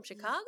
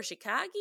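First: Said in the usual way. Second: Chicago said as "shi-KAH-gee"; film's odd pronunciation. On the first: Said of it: "they always say Chicago". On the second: Retold or imitated. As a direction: end Chicago on "gee" instead of "go". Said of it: "'Cause they always say Chicago".

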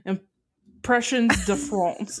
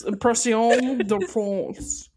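First: Impressions said the English way with a "shunz" ending; slow English-style Impressions, then de France; anglicized French. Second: Slow Impression with a French "syon" ending; French accent attempt. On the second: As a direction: try Impression de France in a drawn-out French accent. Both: Shown as a demonstration. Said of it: "French accent".

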